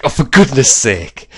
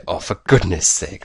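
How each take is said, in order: First: Higher, louder mock exasperation; exasperated catchphrase. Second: Said in the usual way. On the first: Imitating his own reaction when lockpicking fails, exasperated. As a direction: throw it out as a hammed-up complaint. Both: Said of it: "something happens and you say".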